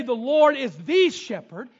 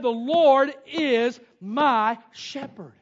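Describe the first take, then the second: First: Slow, with "the" leaned on; stress on the. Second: Slow, with "my" drawn out; stress on my. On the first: Preacher contrasting wrong versions, stressing "the". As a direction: hit "the" in "the shepherd". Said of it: "He did not say". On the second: Preacher giving David's true words, stressing "my". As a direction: dwell on "my" in "my shepherd". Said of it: "He said". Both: Shown as a demonstration.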